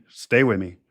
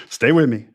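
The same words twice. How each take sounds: First: Said in the usual way. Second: Emphatic plea. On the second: Real, not acted. Urging listeners to keep up.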